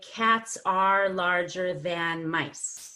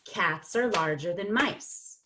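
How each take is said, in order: First: Every word is said fully and carefully. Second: The vowels in 'are' and 'than' are reduced. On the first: The speaker calls it wrong. "that would be very careful" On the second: The speaker calls it right. "So it'll sound like"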